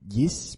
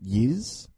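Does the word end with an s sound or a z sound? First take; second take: s sound; z sound. First: The word ends with an s sound. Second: The word ends with a z sound. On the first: The speaker calls it wrong. "Not Yis" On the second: The speaker calls it right. "but Yiz"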